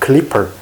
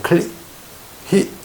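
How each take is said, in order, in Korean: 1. 가운데 자음은 분명한 p 소리예요. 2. 가운데 자음은 숨 섞인 h 소리예요. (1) "입술이 붙어야 돼요" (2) "입술이 안 붙으면 P가 발음이 안 돼"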